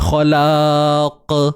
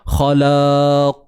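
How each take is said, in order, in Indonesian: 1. Qaf di akhir memantul dengan bunyi k yang ringan. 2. Qaf di akhir memantul dengan bunyi yang tebal dan dalam.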